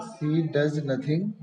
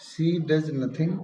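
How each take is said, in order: First: She does nothing, read slowly word by word; slow dictation pace; slow emphatic. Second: She does nothing, very slow with does stressed and rising. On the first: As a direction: spell out the emphatic sentence slowly. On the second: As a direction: lean hard on the word does, dictating slowly. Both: Shown as a demonstration.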